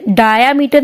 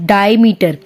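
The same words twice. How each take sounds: First: Diameter said "daa-ya-meter", with an added A; wrong extra A. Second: Diameter said "dai-meter", no added A; corrected, without the A. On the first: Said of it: "ये ए नहीं है इसमें". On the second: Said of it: "डीआई". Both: Shown as a demonstration.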